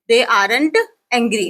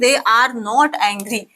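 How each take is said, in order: First: The words 'are not' are contracted to 'aren't'. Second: The words 'are not' are said in full. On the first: The speaker calls it right. "ना कि they आर नॉट angry" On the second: The speaker calls it wrong. "ना कि"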